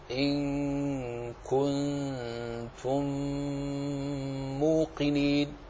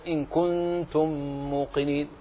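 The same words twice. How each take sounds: First: "إن كنتم موقنين" with the nasal ghunnah on كنتم held long and even, slow and soft; even ghunnah demo. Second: "إن كنتم" with the nasal on كنتم clipped short; "موقنين" with an unequal, shortened nasal; wrong ghunnah demo. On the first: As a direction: hold the nasal hum on كنتم evenly, unhurried. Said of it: "فعندما تقرأ، تقرأ الغنن كلها متساوية في زمنها". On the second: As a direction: rush the ghunnah on كنتم, the mistaken way. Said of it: "ولا تقل مثلًا ... فهذا خطأ وخلل". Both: Shown as a demonstration.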